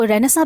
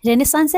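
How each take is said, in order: First: रेनेसां ending on a nasal vowel, no final स; alternative pronunciation. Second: रेनेसांस with the final स clearly sounded; correct pronunciation. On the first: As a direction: say रेनेसां, dropping the last s. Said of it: "कुछ लोग उसको रेनेसां भी बोलते हैं". (रेनेसां, आख़िरी स के बिना उच्चारण) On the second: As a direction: say रेनेसांस, ending on an audible s. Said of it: "इसका करेक्ट प्रोनाउंसिएशन रेनेसांस है". (रेनेसांस का सही उच्चारण, आख़िर में स के साथ) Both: Shown as a demonstration.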